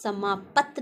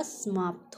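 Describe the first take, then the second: First: समाप्त said as "samaapat"; wrong pronunciation of समाप्त. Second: समाप्त ending in a tight "pt"; corrected "samaapt", softer; correct pronunciation of समाप्त. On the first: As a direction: add a vowel between प and त in समाप्त. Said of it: "नहीं होता". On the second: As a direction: join प and त in समाप्त. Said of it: "समाप्त होता है". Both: Shown as a demonstration.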